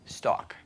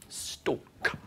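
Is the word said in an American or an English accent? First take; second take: American; English. First: The word is said in an American accent. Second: The word is said in an English accent. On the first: "the Americans will say stock" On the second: "the English actor will always say stalk"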